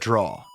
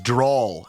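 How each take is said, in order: First: The word ends on a plain vowel. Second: The word ends with an added l sound. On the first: This is the usual way of saying it. "instead of" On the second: This is a regional way of saying it. "another one that I've noticed I do"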